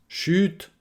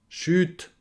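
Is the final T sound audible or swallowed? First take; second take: audible; audible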